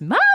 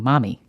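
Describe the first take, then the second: First: It is said loudly, almost shouted. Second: It is said fairly quietly.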